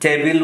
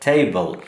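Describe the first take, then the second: First: The second syllable has a clear 'ee' vowel. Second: The second syllable has a weak, reduced vowel. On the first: The speaker calls it wrong. "আমরা কিন্তু টেবিল উচ্চারণ করে থাকি" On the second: The speaker calls it right. "কিন্তু আসলে টেবল"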